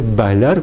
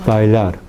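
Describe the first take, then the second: First: "bailar" with a hard, fully stopped b; b fuerte incorrecta. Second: "bailar" lower, with a gentle b; b más suave. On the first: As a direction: burst the b of "bailar". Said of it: "no se dice bailar". («bailar» con b oclusiva fuerte) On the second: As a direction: barely close the lips on "bailar". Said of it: "más suave". («bailar» con b suave, más grave) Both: Shown as a demonstration.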